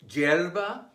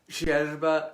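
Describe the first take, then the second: First: The Y sounds like English J. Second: The Y sounds like Argentine SH or ZH.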